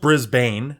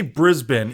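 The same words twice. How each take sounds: First: Brisbane as BRIZ-bayn; as spelled. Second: Brisbane as BRIZ-bin; Brisbane, clipped second syllable like "bin"; preferred pronunciation. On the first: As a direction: say Brisbane with long a, like "bane". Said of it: "it is spelled Brisbane". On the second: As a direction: say Brisbane with a short "bin" ending. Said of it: "I wanna say Brisbane". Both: Shown as a demonstration.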